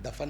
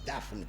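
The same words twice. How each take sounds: First: The word is pronounced loosely and carelessly. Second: The word is pronounced carefully and precisely. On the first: The speaker calls it wrong. "दफन नहीं बेटा" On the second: The speaker calls it right. "शब्दों की शुद्धता पर विशेष ध्यान दीजिए"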